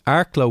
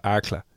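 First: Said in the usual way. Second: Arkla with a short "uh" ending, dropped lower; local pronunciation. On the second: Retold or imitated. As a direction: end Arkla on a loose "la". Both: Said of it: "or as they call it".

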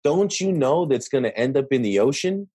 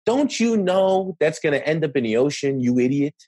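First: Lightly condescending question, slight rise at the end; hint at talking down to someone; understated know-it-all tone; mild condescension. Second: Higher, talking down, as if to a fool; mock scolding of an ignorant person; hammed-up know-it-all sneer; condescending tone. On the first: Retold or imitated. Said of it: "you can hear Josh's tone of voice when he says". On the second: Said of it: "But you can hear it in the tone of voice".

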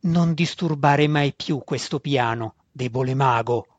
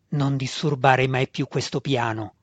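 First: Roar. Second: Restrained, measured warning; final warning. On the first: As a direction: warn him off as a monster, with restraint. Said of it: "ruggì la Ioclo". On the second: Ioclo addressing Alton for the last time, evenly warning. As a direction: warn him one last time, evenly. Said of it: "lo mise in guardia". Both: A narrator's reading.

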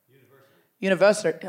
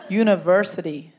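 First: A go at an American "University"; attempted American R. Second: "University" said slowly, reaching for an American R; slow careful R. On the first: Comic tries saying it for an American, attempted American accent. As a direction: try the American R in "University", not quite managed. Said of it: "I can't do the R's". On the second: Comic retries it for an American, slow careful "University". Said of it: "I just have to say it slowly". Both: Shown as a demonstration.

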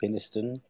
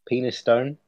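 First: Peniston with the ending shrunk to a short, unstressed "stun"; reduced ending. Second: Penistone said as written, with a full "stone" ending; spelling pronunciation. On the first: Offering the other way to say a Yorkshire place name, Peniston with weak ending. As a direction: say Peniston softly, last syllable weakened. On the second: Offering one way to say a Yorkshire place name, Penistone with full "stone". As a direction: end Penistone on a clear, long "stone". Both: Shown as a demonstration. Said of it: "depends on how you want to pronounce it".

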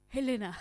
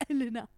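First: Put-on French accent. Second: A hint of a French accent on Helena; mock French accent. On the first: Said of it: "I was trying to do an accent". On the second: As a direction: say Helena like a Frenchwoman, half laughing. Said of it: "That's a spot-on French accent".

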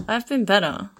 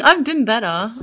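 First: Said in the usual way. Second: Giggling through the words; laughing. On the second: Real, not acted. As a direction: laugh it out half-joking. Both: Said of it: "Not really".

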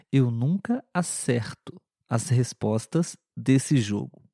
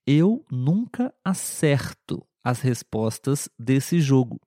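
First: Acerto with an open e, normal pace; model sentence. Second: Acerto with an open e, said slowly; slow model sentence. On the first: Teacher repeats the sentence at normal pace. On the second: Teacher reads the verb sentence slowly to students. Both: Shown as a demonstration. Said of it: "na segunda frase eu disse acerto".

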